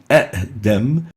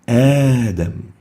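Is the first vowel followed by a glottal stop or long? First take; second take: glottal stop; long. First: A short vowel is followed by a glottal stop. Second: The first vowel is stretched into a long 'aa'. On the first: The speaker calls it wrong. "Instead of saying Adam" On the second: The speaker calls it right. "The second hamza is changed into a mad alif"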